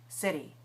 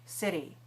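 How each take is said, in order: First: It has an American accent with a tapped t. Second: The same.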